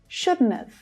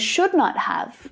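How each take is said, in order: First: The words are run together in a contraction. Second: Each word is said fully and separately. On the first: "becomes shouldn't have" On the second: "should not have becomes shouldn't have"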